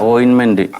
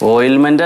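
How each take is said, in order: First: It has an N sound before -ment. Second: It has an L sound before -ment. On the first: The speaker calls it right. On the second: The speaker calls it wrong. "ഓയിൽമെന്റ് അല്ല"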